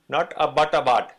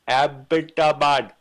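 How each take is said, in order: First: The first syllable sounds like 'ub' in butt. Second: The first syllable sounds like 'ab' in Abbott. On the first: The speaker calls it wrong. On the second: The speaker calls it right. "His name was Abbott. Hence we say"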